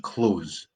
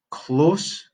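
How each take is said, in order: First: "close" ending in a buzzing z, falling. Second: "close" with a crisp s, rising. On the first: Teacher contrasting two words, "close" with a z. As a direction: say "close" with a z at the end. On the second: Teacher contrasting two words, "close" with an s. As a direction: say "close" with an s at the end. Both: Shown as a demonstration. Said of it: "The difference between".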